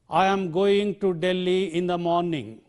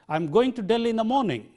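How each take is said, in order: First: Every word is stressed with its full form. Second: Only Delhi and morning are stressed; others weakened. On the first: The speaker calls it wrong. "I stressed every word in that sentence" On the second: The speaker calls it right. "I stressed only the content words, Delhi and morning. And the other words I weakened"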